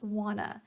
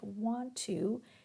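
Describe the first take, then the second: First: The words blend into one reduced form. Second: Both words are said fully and separately. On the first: "the reduction" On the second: "like want to is wanna"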